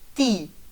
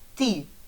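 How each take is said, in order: The two takes are said the same way.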